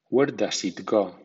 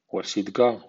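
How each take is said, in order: First: Every word is pronounced fully and carefully. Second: The words are reduced and run together. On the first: "primero en estilo formal" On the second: "a continuación en versión informal o coloquial"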